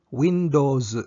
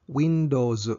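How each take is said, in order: The two takes are said the same way.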